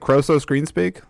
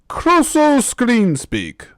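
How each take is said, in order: First: The voice stays in its ordinary natural quality. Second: The voice shifts into an altered, put-on quality. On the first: The speaker calls it right. "can't I just say" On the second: The speaker calls it wrong. "Why does my voice have to change when I?"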